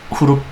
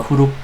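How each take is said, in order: The two takes are said the same way.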